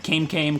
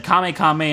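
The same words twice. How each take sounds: First: Kame said to rhyme with "name"; one-syllable Kame. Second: Kame said KAH-may, both times; two-syllable Kame. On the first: Player showing his other name for Heliolisk, Kame as KAYM. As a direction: say each Kame as KAYM, silent e. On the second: Player showing how he named his Heliolisk, Kame as KAH-may. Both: Shown as a demonstration. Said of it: "I would switch back and forth".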